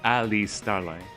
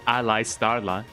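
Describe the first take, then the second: First: The first name does not sound like ally. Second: The first name sounds like the word ally. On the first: The speaker calls it right. "but no, it is Ali Starla" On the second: The speaker calls it wrong. "I used to pronounce it Ali Starla because you know ally, you know, like an ally"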